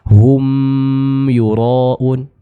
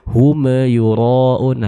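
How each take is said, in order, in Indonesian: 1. Bunyi m ditahan lebih lama. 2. Bunyi m dipantulkan dengan gema. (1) "bukan hum yuraun. Ini kurang tepat" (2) "Atau kita pantulkan"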